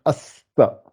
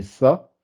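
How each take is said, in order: First: "asta" said as as-sa, slowly, with a held s; shadda, doubled s. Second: "ça" as one simple syllable with a single s; no shadda. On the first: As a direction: split "asta" into as and sa, lingering on the s. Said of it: "comme il y a le shadda". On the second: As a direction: say "ça" with nothing before the s. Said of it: "s'il n'y avait pas". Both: Shown as a demonstration.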